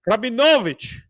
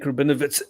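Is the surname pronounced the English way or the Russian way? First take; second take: Russian; English. First: The surname is pronounced the Russian way. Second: The surname is pronounced the English way. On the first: The speaker calls it right. "that is a Russian surname. That is not how you pronounce. It's Rabinovich" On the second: The speaker calls it wrong. "I told her my name and surname"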